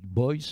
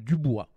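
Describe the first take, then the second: First: The name ends in an English 'boyce' sound. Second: The name ends in a French 'bwa' sound. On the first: "les Américains disent Boyce" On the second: "je prononce à la française"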